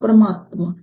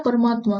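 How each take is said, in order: First: परमात्मा said "parama-atma", extra a slipped in after र; svar bhakti slip. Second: Said in the usual way. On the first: Shown as a demonstration. Teacher shows students the wrong way: परमात्मा said as paramatma with an extra a. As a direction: split the cluster in परमात्मा with an added vowel. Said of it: "तो इसको कैसे बोलोगे?". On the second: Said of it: "परमात्मा ऐसे होता है".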